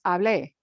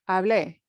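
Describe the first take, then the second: No difference in how they are said.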